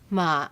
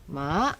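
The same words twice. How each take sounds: First: The pitch falls from a low start. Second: The pitch dips and then rises. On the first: It means but. "low falling, but" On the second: It means horse. "dipping rising, horse"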